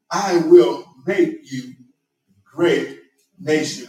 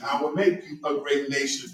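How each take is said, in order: First: Slow and loud, leaning hard on "will" and "great"; emphatic stress. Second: Said in the usual way. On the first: Shown as a demonstration. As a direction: preach "I will make you great nation" with weight on each word, slow. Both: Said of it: "but a different emphasis".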